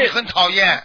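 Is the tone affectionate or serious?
serious. It is said in a stern, serious tone. The speaker is displeased with the listener. The speaker calls it right. "就这种口气"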